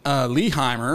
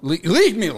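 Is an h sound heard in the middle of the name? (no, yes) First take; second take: yes; no. First: An h sound is heard in the middle. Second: No h sound is heard in the middle. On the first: The speaker calls it wrong. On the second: The speaker calls it right. "There you go"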